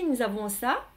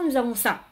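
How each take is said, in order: First: The pitch rises at the end. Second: The pitch falls at the end. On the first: More is still to come. "il va monter" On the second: The statement is finished. "ça descend"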